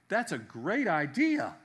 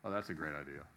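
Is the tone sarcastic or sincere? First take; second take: sincere; sarcastic. First: The voice sounds sincere and approving. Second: The voice sounds sarcastic and mocking. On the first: The speaker really likes the idea. "If you say to someone" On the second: The speaker thinks the idea is bad. "it's totally different than"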